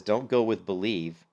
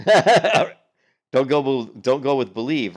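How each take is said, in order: First: Said in the usual way. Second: "Don't" hit loud and stretched out slow, then "go with believe"; mock emphatic repeat. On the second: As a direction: hammer "Don't" in disbelief.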